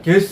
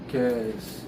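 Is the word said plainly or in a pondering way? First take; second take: plainly; pondering. First: It is said plainly, without any thoughtful tone. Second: It is said slowly in a thoughtful, pondering tone. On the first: "그냥 guess 이렇게 안 하고" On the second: "추측하는 거니까 guess 이런 식으로 해서 일부러 이렇게 생각하라"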